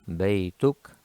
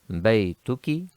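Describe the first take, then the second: First: The word ends with a consonant. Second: The word ends with a short vowel. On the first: The speaker stops after the word. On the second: The speaker goes on without stopping.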